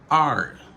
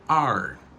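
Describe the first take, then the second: First: It is reduced to sound like letter R. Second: The same.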